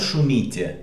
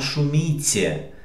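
First: The word is said with harder Russian-style sounds. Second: The word is said with softer Belarusian-style sounds. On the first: This is how it sounds in Russian. "non «шумите» come in russo" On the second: This is how it sounds in Belarusian. "ma «шумите» è più dolce"

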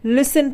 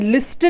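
First: The t sound is silent. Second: The t sound is pronounced. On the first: The speaker calls it right. "लिसन पढ़ते हैं" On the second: The speaker calls it wrong. "लिस्टन नहीं पढ़ते"

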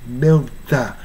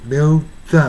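Both takes have the same delivery.

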